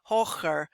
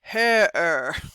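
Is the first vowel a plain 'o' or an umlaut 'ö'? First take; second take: plain o; umlaut ö. First: It has a plain o and a ch sound. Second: It has a rounded ö and no ch sound. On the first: The speaker calls it wrong. "not hocher" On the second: The speaker calls it right. "the O with an umlaut is an ö sound"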